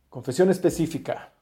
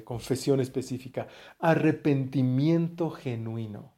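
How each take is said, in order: First: "confesión específica" punched louder, stressing "confesión"; emphatic. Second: Dictating. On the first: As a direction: hit "confesión" hard to drive the point home. ("confesión" acentuada con fuerza) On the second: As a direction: dictate it so they can write it down. (dictando despacio, alargando "específica") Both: Shown as a demonstration. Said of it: "Apúntenla por ahí".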